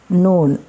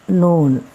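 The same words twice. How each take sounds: The two takes are said the same way.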